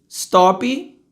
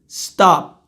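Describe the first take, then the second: First: An extra vowel sound follows the final consonant. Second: The word ends cleanly on the final consonant. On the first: The speaker calls it wrong. "brasileiro, né?" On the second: The speaker calls it right. "Eu faço a boca do P e não deixo o ar passar"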